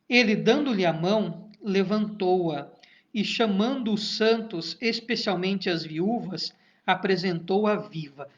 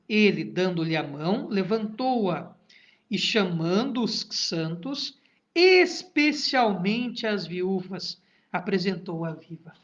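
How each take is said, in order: First: It is read at an ordinary pace. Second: It is read slowly with long pauses.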